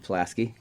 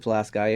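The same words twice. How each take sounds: First: It is pronounced the way outsiders say it. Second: It is pronounced the way local people say it. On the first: The speaker is not from the area. "If you're not from there, then you Pulaski" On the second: The speaker is from the area. "if you're from there, you put, pronounce it Pulaski"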